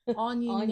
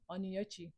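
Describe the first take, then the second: First: The name is said in a simplified, tweaked pronunciation. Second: The name keeps its original Igbo pronunciation. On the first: The name is changed so others can say it. "now I'm tweaking the pronunciation so you can say it" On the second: This is the name as it really is. "Now I'm not saying Onyechi"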